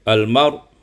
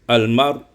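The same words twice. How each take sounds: No difference in how they are said.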